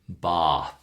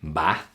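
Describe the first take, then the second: First: It is said with a standard British accent. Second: It is said with a northern English accent. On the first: "the English we're teaching, the international version" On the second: "someone from the northern part of the U K, they might say"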